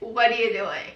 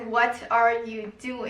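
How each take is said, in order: First: It is said with a native American English accent. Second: It is said in a Chinese-accented style.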